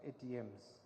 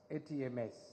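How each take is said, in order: First: The final S is a plural ending. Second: The final S is a separate letter. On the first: It sounds like cash machines. The speaker calls it wrong. "not A T Ms" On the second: It names the four sectors. The speaker calls it right. "collectively referred to as A T M S"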